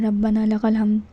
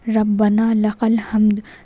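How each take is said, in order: First: The phrase is rushed out quickly. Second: The phrase is said slowly and clearly. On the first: The speaker calls it wrong. "जल्दी से पढ़ लेते हैं ... इस तरीके से नहीं पढ़ना" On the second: The speaker calls it right. "साफ पढ़ना है ... ये है सही प्रोनंस"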